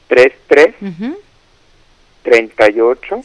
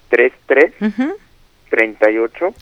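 First: It is said more slowly. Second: It is said at a normal pace.

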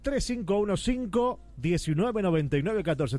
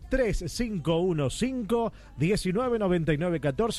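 First: The number is said fast. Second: The number is said slowly.

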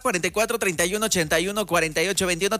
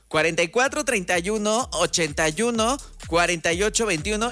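First: The number is said at normal speed. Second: The number is said more slowly.

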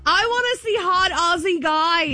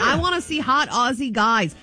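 First: It is said in a forceful, aggressive way. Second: It is said in a mild, plain way.

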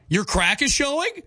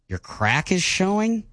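First: It sounds sarcastic. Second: It sounds disappointed.

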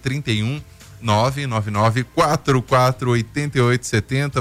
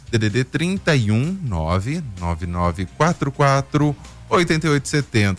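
First: The number is read at normal speed. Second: The number is read more slowly.

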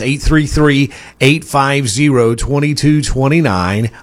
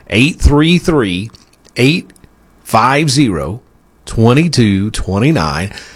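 First: The number is read at a faster pace. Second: The number is read at a slower pace.

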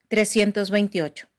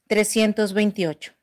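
The two takes are said the same way.

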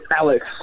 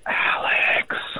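First: It is said in a normal voice. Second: It is said in a whisper.

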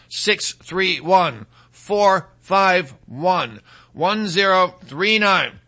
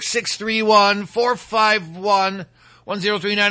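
First: The number is read slowly. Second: The number is read at normal speed.

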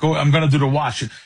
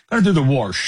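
First: Wash is said plainly, without an R. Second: Wash is said like warsh, with an R.

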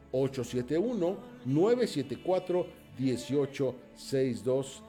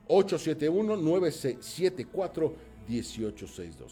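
First: The number is said more slowly. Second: The number is said at normal speed.

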